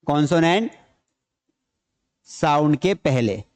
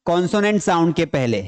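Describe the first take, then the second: First: Slow dictation. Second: Said in the usual way. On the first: Shown as a demonstration. Teacher dictating the rule to students, slow and broken up. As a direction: split into pieces with long pauses. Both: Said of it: "ये कब आता है?".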